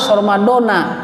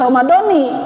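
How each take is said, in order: First: The word ends with an 'a' vowel. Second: The word ends with an 'i' vowel. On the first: The speaker calls it right. "ini harus Ramadana" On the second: The speaker calls it wrong. "ini jangan dibaca Ramadoni"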